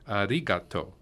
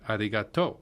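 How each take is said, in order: First: The accent falls on the syllable ri. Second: The accent falls on the syllable to. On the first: This is the standard Japanese form. "in standard Japanese, the accent's on the ri" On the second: This is the Kansai dialect form. "in Kansai Ben, the accent's on the to"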